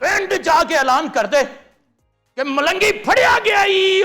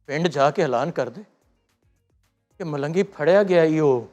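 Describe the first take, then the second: First: It is said in an angry mood. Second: It is said in a sad mood.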